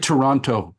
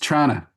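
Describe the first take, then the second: First: The name is said with all three syllables. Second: The name is squeezed into two syllables. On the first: The speaker is a visitor. The speaker calls it wrong. "Don't say Toronto. Then we know you're you're a visitor" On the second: The speaker is a local. The speaker calls it right. "you got to say it the way Torontonians say it. It's Trana"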